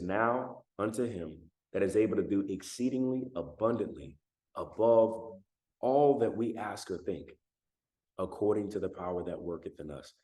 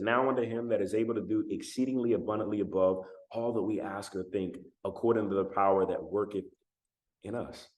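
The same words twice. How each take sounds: First: It is read at a slower pace. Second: It is read at a normal, quicker pace.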